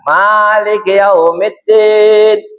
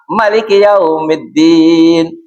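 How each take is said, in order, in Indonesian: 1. Vokal pertama dari Malik panjang. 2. Vokal pertama dari Malik pendek.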